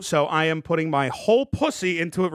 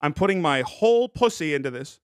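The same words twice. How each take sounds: First: A hint of his old voice; lightly recalling how he used to talk; old catchphrase voice. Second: Put-on his old way of talking, barely changed; old catchphrase voice. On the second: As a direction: slip back into the old voice. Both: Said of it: "Remember, I used to talk like that?".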